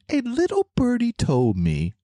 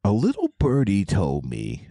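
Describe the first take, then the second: First: Very high squeaky cartoon voice; narwhal voice. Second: Said in the usual way. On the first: Shown as a demonstration. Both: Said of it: "in my narwhal voice".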